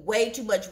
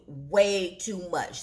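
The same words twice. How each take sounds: First: Said in the usual way. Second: Slow, lower WAY TOO MUCH; "Way too much" stretched out slowly for weight; emphatic repeat. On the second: Real, not acted. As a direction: draw out each word of "Way too much".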